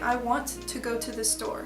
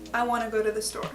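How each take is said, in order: First: Every T sound is pronounced fully and crisply. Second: The T sounds are softened and reduced. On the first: The speaker calls it wrong. "overpronounced by non-native speakers" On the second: The speaker calls it right. "it turns kind of into a"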